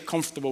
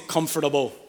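First: Some sounds of the word are dropped. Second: Every sound of the word is pronounced. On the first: This is how it is said in the speaker's home community. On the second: This is how others may say it.

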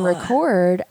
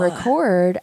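First: The stress is on the second syllable. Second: The stress is on the second syllable.

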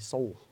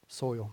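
First: The vowel sounds flattened, close to 'oh'. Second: The vowel glides clearly, as in 'oy'. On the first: "I'm in the South. I usually might say soul" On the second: "I said it right"

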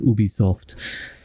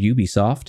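First: It is said with a European pronunciation. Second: It is said with an American pronunciation.

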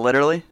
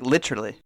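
First: It is pronounced in an American way. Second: It is pronounced in a British way.

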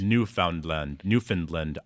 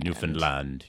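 First: The stress falls before the final syllable land. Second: The stress falls on the final syllable land. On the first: The speaker calls it wrong. "No matter what I do, I'll never pronounce it right" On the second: The speaker calls it right. "If you emphasize the land, you get it pretty good"

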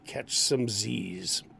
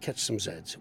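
First: The Z is said the American way. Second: The Z is said the Canadian way. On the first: The speaker calls it right. "We say" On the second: The speaker calls it wrong. "even in Canada, we don't say"

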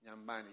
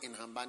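First: The middle is said with a 'ny' sound. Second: The middle is said with an 'h' sound. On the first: The speaker calls it right. "They pronounce it in Nyambani" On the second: The speaker calls it wrong. "they don't pronounce it in Hambani"

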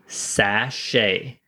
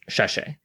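First: The word is said with plain, crisp s sounds. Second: The word is said with slurred, lisping s sounds. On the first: The speaker calls it right. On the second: The speaker calls it wrong.

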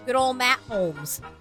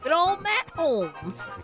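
First: It is said flatly, without much feeling. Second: It is said with real enthusiasm.

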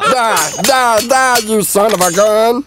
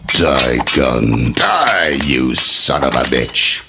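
First: It is said in Meatwad's voice. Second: It is said in a movie-trailer narrator voice.

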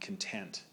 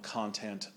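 First: The stress is on the second syllable. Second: The stress is on the first syllable. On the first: It is an adjective. "an adjective" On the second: It is a noun. "a noun"

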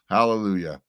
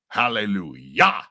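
First: It is said with a plain English pronunciation. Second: It is said Hebrew-style with a throaty guttural sound.

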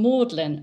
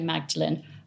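First: The name is said without a g sound. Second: The name is said with a g sound. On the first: "Magdalene like the Oxford College" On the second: "pronounced as Magdalene because of Mary Magdalene"

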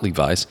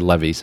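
First: The brand name is said the usual English way. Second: The brand name is said the German way. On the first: "and not Levi's" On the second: "I know lots of German people who say Levi's"

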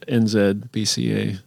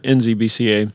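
First: Z is said 'zed', the Canadian way. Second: Z is said 'zee', the American way.

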